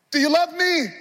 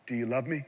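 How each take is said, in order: First: High, loud cry of the question; loud pleading. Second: Soft, lower voice asking gently; quiet question. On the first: Jesus pleading with Peter at the peak, loud question. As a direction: cry it out to the whole room. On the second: Jesus softly asking Peter at the meal, quiet question. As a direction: ask it softly, almost under your breath. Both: Acted.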